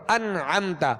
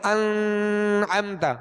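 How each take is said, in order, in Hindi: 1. नून साफ़ और छोटा है, नाक से खींचा हुआ नहीं। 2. नून को नासिका की लंबी गुनगुनाहट के साथ खींचा जाता है। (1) "जैसे सूरह फातिहा में हम पढ़ते" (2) "इसको हम यूं नहीं पढ़ेंगे ... ये जो आवाज़ ठहराई ये गुन्ना कहलाया"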